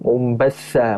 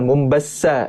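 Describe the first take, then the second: First: The consonant before the last vowel is th. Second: The consonant before the last vowel is s. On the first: The speaker calls it right. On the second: The speaker calls it wrong.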